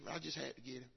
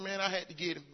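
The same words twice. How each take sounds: First: Much softer, lower "I just had to get him"; quiet repeat. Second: Said in the usual way. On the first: Real, not acted. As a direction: drop the voice to a confiding murmur.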